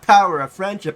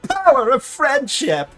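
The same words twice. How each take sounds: First: It is said in a flat, plain way. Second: It is said in a bubbly, cheerful way. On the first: The speaker calls it wrong. "It's not power of friendship" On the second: The speaker calls it right. "speaking with that many rainbows"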